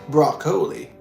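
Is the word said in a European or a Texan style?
European. It is said in a formal, upper-class European-style pronunciation. "a more formal uh, English pronunciation ... a more European, ... high high class pronunciation"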